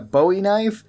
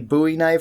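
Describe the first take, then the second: First: Bowie is pronounced like the singer's surname. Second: Bowie is pronounced unlike the singer's surname. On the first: It follows the famous singer's name. "not a Bowie knife" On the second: The knife is named after the Alamo fighter. "why I call it a Bowie knife"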